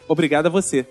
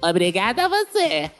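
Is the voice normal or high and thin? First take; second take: normal; high thin. First: It is said in a normal voice. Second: It is said in a high, thin, annoying voice.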